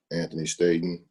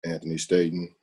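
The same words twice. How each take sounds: The two takes are said the same way.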